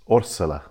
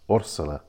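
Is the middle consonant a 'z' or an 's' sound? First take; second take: s; s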